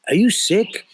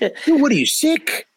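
First: It is said in a concerned tone. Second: It is said in a joking tone.

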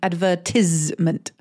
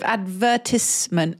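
First: The middle of the word has a z sound. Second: The middle of the word has a t sound. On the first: "advertisement is the differentiation" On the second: "saying z instead of t, so instead of advertisement"

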